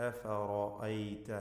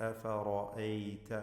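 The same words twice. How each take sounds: Both takes have the same delivery.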